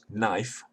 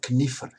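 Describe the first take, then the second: First: The initial k is silent before the n. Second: The initial k is sounded before the n. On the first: This is the modern form of the word. "which is now pronounced knife" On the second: This is the older form of the word. "Knifer in Chaucerian English was still retained the pronunciation"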